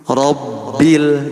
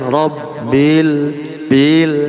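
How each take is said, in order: First: The final L is held steady without any swing. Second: The final L is given a swinging bounce. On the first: The speaker calls it right. "Harusnya alhamdu alhamdu robbil" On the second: The speaker calls it wrong. "jangan robbil bil tuh jadi mengayun"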